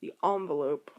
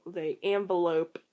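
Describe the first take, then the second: First: The envelope with an open ah, ON-velope; posh envelope. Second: Envelope said as ON-velope with a broad ah; ON-velope, slow and fancy; posh envelope. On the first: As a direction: stress the ON in ON-velope. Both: Shown as a demonstration. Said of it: "I feel weird saying envelope like that because it sounds like a really posh way".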